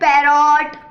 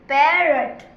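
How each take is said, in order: First: The second syllable has a long, full 'o' vowel. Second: The second syllable has a short, reduced vowel. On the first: The speaker calls it wrong. "वो बोलते पैरॉट। ये ऐसे ये तो बिल्कुल सही है ही नहीं" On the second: The speaker calls it right. "ये सिर्फ एक ओ है... पैरट पैरट ऐसे"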